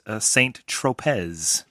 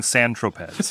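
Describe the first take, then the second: First: "Saint Tropez" said slowly the English way, with a clear "saint" and a sounded final z; anglicized Saint Tropez. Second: "San Tropez" in French, a nasal "san" and no final z. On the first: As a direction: spell out "Saint Tropez" like an English tourist, slow and careful. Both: Real, not acted. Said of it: "Pronounced exactly right".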